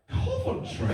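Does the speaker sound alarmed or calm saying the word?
alarmed. The word is said with alarmed disbelief. The speaker is shocked at where the child woke up. "I do say it differently"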